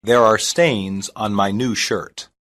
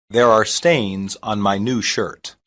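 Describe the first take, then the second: No difference in how they are said.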